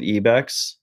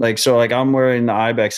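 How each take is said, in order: First: The name begins with an 'ee' sound. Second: The name begins with an 'eye' sound. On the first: The speaker calls it right. "we're supposed to be pronouncing it EBEX" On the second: The speaker calls it wrong. "I'm wearing the IBEX hat"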